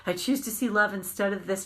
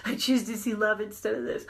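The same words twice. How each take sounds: First: Said in the usual way. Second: Said through a light laugh; half-laughing affirmation. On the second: Shown as a demonstration. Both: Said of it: "And I might be saying".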